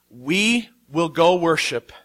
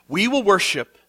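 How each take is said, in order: First: "we" stretched out slowly with weight, rest unhurried; stress on WE. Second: "will" pressed firmly, "we" left light, normal pace; stress on WILL. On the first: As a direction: lean hard on "we", say it slowly. Abraham tells his servants. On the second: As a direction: punch the word "will" with certainty. Abraham repeats to servants. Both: Acted.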